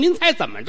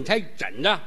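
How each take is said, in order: First: Every sound is spoken crisply and clearly. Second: The sounds are slurred as if tongue-tied. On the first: The speaker calls it right. "多利索" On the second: The speaker calls it wrong. "你就这舌头"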